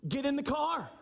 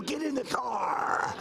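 First: Put-on mom ordering the kids. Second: Stern command. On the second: Retold or imitated. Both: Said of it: "she told our children".

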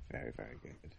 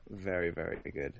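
First: Much softer repeat of Very, very good; fading to near silence. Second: Said in the usual way. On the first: Real, not acted. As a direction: let Very, very good trail off under the breath.

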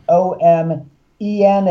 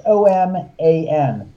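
First: O M E N spelled slowly, letter by letter, as the mistake; O M E N named as the wrong spelling. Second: O M A N spelled slowly, letter by letter, as the correction; O M A N given as the correct spelling; right spelling. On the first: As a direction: spell O M E N deliberately to show the wrong way. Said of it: "It's not O M E N". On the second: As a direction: spell O M A N firmly to set it right. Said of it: "it's O M A N". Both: Shown as a demonstration.

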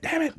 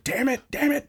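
First: Even higher, softer squeak; sidekick catchphrase, softer. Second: Much higher squeaky catchphrase; sidekick catchphrase. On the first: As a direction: let the tic trail off, squeaky. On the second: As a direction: chirp it like a mascot tic. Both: Retold or imitated. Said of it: "he accents with".

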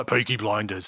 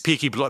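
First: Put-on Brummie accent, "Poiky Bloinders"; broad Brummie vowels in "Blinders"; Birmingham accent. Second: Said in the usual way. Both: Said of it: "I like a Birmingham accent".

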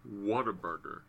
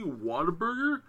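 First: Said in the usual way. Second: "Whataburger?" asked high in disbelief; can't believe "Whataburger?", pitch way up; incredulous. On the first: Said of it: "he said". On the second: Retold or imitated. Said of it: "Conrad was like".

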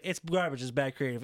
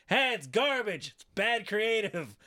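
First: Said in the usual way. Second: Slow, high mocking verdict; quoting CM Punk. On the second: CM Punk trashing the show, slow and high. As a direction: drag it out like a smug critic. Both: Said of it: "he's like".

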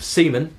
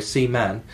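First: "Seaman" with a reduced last vowel; slip to semen. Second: "Seaman" with a full MAN ending; corrected to Sea-Man. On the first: Recounting the game, "Seaman" mispronounced as semen. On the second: Correcting himself on the name, "Seaman" as sea-man. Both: Real, not acted. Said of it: "uh, sorry".

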